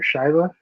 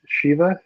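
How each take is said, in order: First: "Shiva" opening like the word "shy". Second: "Shiva" opening like the word "she"; Shiva as SHEE-va. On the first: Unsure of the tiger's name, trying "Shiva" as SHY-va. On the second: Unsure of the tiger's name, trying "Shiva" as SHEE-va. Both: Shown as a demonstration. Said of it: "I don't know how you say".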